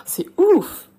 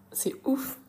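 First: High, loud exclamation on "ouf"; amazed reaction. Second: High, whispered disbelief; hushed amazed reaction. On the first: Teacher acting a reaction to someone's story, loudly amazed. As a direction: burst out in demonstrated amazement. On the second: Teacher acting a reaction to someone's story, whispered amazement. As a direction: whisper it, as if stunned. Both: Shown as a demonstration. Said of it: "pour réagir à ce que quelqu'un".

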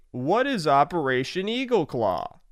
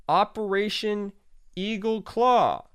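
First: Said in the usual way. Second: Dramatic announcement. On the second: Shown as a demonstration. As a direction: announce it like a movie trailer.

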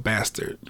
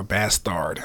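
First: Said in the usual way. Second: "Bastard" said as bas-TARD, with a full second vowel; alternative pronunciation. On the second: Shown as a demonstration. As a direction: draw out the end of "Bastard" like "tard". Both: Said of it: "don't know how they pronounce it".

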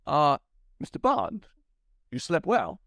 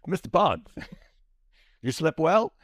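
First: Hammed-up Walken, kept together; Walken retake. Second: Laughing mid-line, loud; higher, louder mock Walken dissolving into a laugh; Walken through laughter. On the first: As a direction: redo the villain line straight. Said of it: "Let me do that again". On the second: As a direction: break up while doing Walken. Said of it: "channel my Walken".

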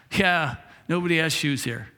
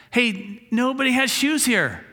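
First: Said in the usual way. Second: Higher, amazed and eager; a hint of a salesman's delight; excited discovery. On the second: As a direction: blurt it out like a big discovery. Salesman amazed at shoeless town.

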